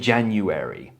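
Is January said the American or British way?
American. It has the American ending the speaker prefers. "I say January. I just prefer it"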